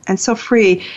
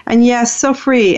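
First: Said in the usual way. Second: "so free" drawn out slowly and lifted higher, "free" falling at the end; stress on free. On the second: Shown as a demonstration. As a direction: linger on "so free", yearning and slow.

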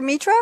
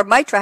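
First: Long ee in the first syllable of "Mitra"; MEE-tra pronunciation. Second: First syllable of "Mitra" rhymes with "my"; MY-tra pronunciation. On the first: Host checking a professor's name with her guest, "Mitra" said MEE-tra. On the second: Host offering another reading of a professor's name, "Mitra" said MY-tra. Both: Shown as a demonstration. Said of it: "How do you pronounce it?".

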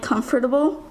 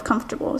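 First: "comfortable" in four syllables, COM-fer-ta-ble; Spanish-derived full form. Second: "comfortable" shortened to COMF-ter-ble; usual contracted form. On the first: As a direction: say "comfortable" with the middle vowel, COM-fer-ta-bul. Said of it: "makes it sound like comfortable". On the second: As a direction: say "comfortable" in three syllables, COMF-ter-bul. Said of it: "instead of comfortable". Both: Shown as a demonstration.

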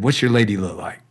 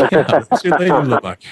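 First: Said in the usual way. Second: Louder, higher, chuckling through it; amused teasing repeat, louder; laughing repeat. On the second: Retold or imitated. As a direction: ask again grinning.

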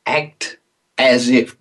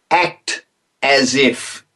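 No difference in how they are said.

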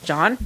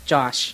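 First: John as zhahn, rising; John, wrong name. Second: Josh as zhahsh, falling; Josh, right name. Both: Shown as a demonstration.

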